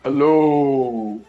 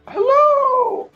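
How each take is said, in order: First: It is said in a lower-pitched voice. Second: It is said in a high-pitched voice.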